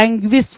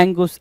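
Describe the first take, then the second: First: "एंग्विस" with a gw-glide, ANG-gwis; corrected pronunciation. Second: "एंगुस" with a plain "gus" ending, no w-glide; wrong pronunciation. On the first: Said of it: "एंग्विस होता है". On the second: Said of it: "एंगुस नहीं होता है". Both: Shown as a demonstration.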